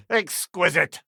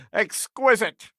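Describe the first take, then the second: First: Said in the usual way. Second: Slow, high, relishing "Exquisite!"; savouring exclamation. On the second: Acted. Savouring exclamation after laugh.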